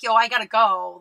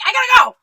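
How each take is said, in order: First: Said in the usual way. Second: High, loud, abrupt yell; kinda mean. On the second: Acted. Cornered by a chatty acquaintance, kinda mean loud exit. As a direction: cut them off with a forceful shout. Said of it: "you have to be, like, kinda mean about it".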